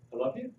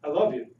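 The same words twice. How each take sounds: First: Gentle I love you. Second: "love" in "I love you" hit louder with a falling tune; stressed love. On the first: To the audience showing how words change meaning, tender. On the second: To the audience contrasting the same words, stress on "love". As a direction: lean on "love" and drop the pitch at the end. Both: Shown as a demonstration. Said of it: "Is that a little different than".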